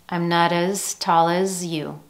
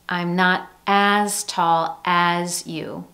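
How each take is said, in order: First: Both 'as' are reduced to a weak schwa. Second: Both 'as' have a full, clear vowel. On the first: The speaker calls it right. "Listen carefully" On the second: The speaker calls it wrong. "You don't hear"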